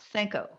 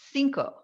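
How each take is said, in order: First: It is pronounced with a French-style vowel. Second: It is pronounced the Spanish way. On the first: The speaker calls it wrong. "not Cinco ... cinq is the French pronunciation" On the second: The speaker calls it right. "when you say the word C I N C O, cinco"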